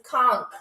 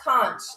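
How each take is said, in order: First: The word sounds like Kronk. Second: The word does not sound like Kronk. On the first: The speaker calls it right. "like Kronk" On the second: The speaker calls it wrong. "It's not conch"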